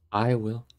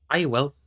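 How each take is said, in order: First: Heavily, without eagerness; heavy. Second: Louder, eager volunteering; ready and emphatic. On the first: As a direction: answer with understated weight. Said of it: "said Aragorn heavily". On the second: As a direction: jump in eagerly. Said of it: "said Gimli eagerly". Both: A narrator's reading.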